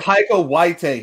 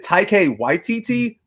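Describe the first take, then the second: First: One T sound in the name is left out. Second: Every T sound in the name is pronounced. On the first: This is how someone else mispronounced it. The speaker calls it wrong. "He just didn't say the T" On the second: This would have been accepted as correct. The speaker calls it right. "If if he said Taika Waititi, then I'm pretty sure they would have given it to him"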